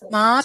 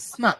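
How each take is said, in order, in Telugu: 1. చివరి అచ్చు దీర్ఘం. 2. చివరి అచ్చు హ్రస్వం. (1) "స్మా కాదు" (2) "ఉండదండి"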